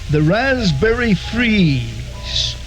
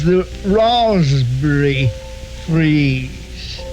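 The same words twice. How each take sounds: First: It is said in a plain American accent. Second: It is said in a British accent. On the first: "It's called" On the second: "known in England as"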